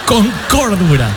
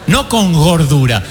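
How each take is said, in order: First: "cordura" slow, clean k sound at the start. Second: "gordura" slow, hard g at the start, the wrong word on purpose. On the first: Preacher corrects to the church, with a k: "cordura". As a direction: set "cordura" right against the joke, firm k. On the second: Preacher tells the church, with a g: "gordura". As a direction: drag out "gordura", voicing the g clearly. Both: Shown as a demonstration. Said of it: "te miras con cordura".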